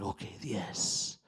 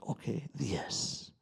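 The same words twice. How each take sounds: First: Slow, soft whisper of the ceremony guide. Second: Slow calm guide. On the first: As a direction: breathe the words out slowly, barely voiced. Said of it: "And he's like". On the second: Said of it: "and then he's like". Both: Retold or imitated.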